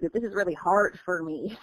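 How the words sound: It has an American accent with pronounced r sounds. "but in in America"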